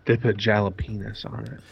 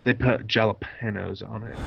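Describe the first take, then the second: First: "jalapenos" said as "jala-PEE-nus"; joke mispronunciation. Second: "jalapenos" said with a hard J and a "pay" middle. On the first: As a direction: turn the middle of "jalapenos" into a long "pee". Repeats the other speaker's joke pronunciation. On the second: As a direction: say "jalapenos" with "pen-yose" sounded as "pay-nose". Word repeated, then mispronounced as joke. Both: Shown as a demonstration.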